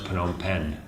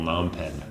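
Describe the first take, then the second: First: It is said closer to the local pronunciation. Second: It is said with a lazy anglicized pronunciation. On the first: The speaker calls it right. "They know how to pronounce Phnom Penh" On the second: The speaker calls it wrong. "the lazy colonial Phnom Penh"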